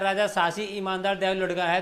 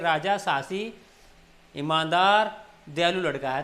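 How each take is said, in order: First: It is read straight through without any pauses. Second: It is read with short pauses between the words. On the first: The speaker calls it wrong. "हमने एकदम नहीं पढ़ा" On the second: The speaker calls it right. "तो ऐसे रुक कर पढ़ेंगे"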